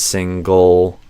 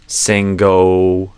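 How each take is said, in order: First: The word ends with a dark, retracted L. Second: The final L is replaced by an O-like vowel.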